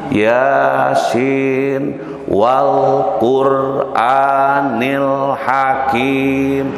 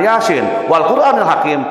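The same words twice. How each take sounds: First: It is recited slowly and calmly. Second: It is recited quickly and hurriedly. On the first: It suits someone hearing it for the first time. The speaker calls it right. "Jadi pelan-pelan" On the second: It is too hurried for a beginner to follow. The speaker calls it wrong. "Jangan ... eh atuh ripuh teuing gitu mah"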